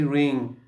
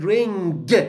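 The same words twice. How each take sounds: First: It ends in a single ng sound. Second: A hard g sound follows the ng. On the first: The speaker calls it right. "I should say ring" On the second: The speaker calls it wrong. "you said ring"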